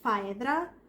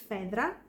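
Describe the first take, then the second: First: The name has an English, spelling-based pronunciation. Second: The name has a Greek pronunciation. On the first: The speaker calls it wrong. "the way that it's written" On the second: The speaker calls it right. "but it's Phaedra"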